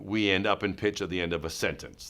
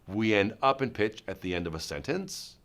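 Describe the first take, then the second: First: The pitch falls at the end. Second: The pitch rises at the end. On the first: It is a confident statement. The speaker calls it right. "that's my sentence" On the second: It sounds like a question and loses authority. The speaker calls it wrong. "suddenly it becomes a question"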